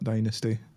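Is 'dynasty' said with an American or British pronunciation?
American. The word has an American pronunciation. The speaker calls it wrong. "not dynasty"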